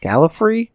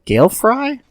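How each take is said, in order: First: Gallifrey run together as one word, high and unsure; Gallifrey blended, a hesitant guess; second try at the name. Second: Gail Fry said as two words, high and unsure; first try at the name. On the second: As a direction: sound out Gail Fry, questioning. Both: Shown as a demonstration. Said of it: "I don't know".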